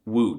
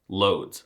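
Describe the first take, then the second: First: It begins with a W sound and ends in ch. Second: It begins with an L sound, like English loads. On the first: The speaker calls it right. "I mean, Łódź" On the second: The speaker calls it wrong. "if you said loads, you need to get yourself checked out"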